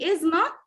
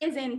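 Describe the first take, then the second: First: It is said as two full words. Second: It is contracted into one word. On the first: "instead of saying is not" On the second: "This is contraction"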